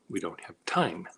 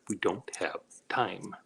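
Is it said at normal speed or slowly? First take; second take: normal speed; slowly. First: It is said at normal speed. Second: It is said slowly, word by word.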